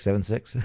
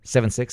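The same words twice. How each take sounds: First: Chuckling through the numbers; amused repeat with a laugh. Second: Said in the usual way. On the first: Real, not acted. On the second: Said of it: "seven six (laughs)".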